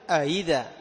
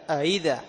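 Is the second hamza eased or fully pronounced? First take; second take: eased; eased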